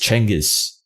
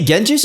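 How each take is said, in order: First: The name starts with a ch sound. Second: The name starts with a soft j sound. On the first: The speaker calls it right. "the real way you say Genghis Khan's name is Chengiz" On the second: The speaker calls it wrong. "Genghis is not the proper pronunciation of his name"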